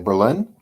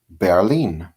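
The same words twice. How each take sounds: First: It is said the English way, with English vowels. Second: It is said the German way, like 'bear-lean'. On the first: "We say Berlin" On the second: "They say it like the word bear, and then lean"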